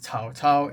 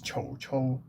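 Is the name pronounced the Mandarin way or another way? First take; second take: Mandarin; other. First: The name is said with Mandarin pronunciation. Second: The name is said with a non-Mandarin pronunciation. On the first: This is the modern standard reading. "it's Cao Cao in Mandarin" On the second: This is claimed to be closer to the historical pronunciation. "the actual pronunciation of this guy's name is Chou Chou"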